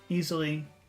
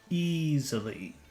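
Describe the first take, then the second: First: The word is said plainly without extra emphasis. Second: The word is said with strong, lengthened emphasis. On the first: "Normal easily" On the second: "Focus easily"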